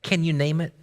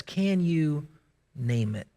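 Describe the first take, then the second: First: Said in the usual way. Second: Low, hushed, slowed question; quiet repeat. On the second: Shown as a demonstration. Preacher asking the congregation again, hushed. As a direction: let it sink in softly.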